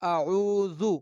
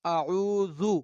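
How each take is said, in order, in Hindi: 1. बीच का व्यंजन नरम th जैसा बोला जाता है। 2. बीच का व्यंजन नरम th जैसा बोला जाता है।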